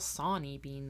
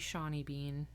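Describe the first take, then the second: First: The name starts with a plain s sound. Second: The name starts with an sh sound. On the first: The speaker calls it right. "I've been saying it in my head wrong. All right, well, Sawney Bean then" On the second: The speaker calls it wrong. "Really feels like it should be Shawnee Bean. Because then it could be Sean Bean"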